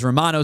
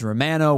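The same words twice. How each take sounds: First: The name is pronounced the American way. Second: The name is pronounced the Canadian way. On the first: "whereas the American pronunciation is" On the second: "apparently the Canadian pronunciation is"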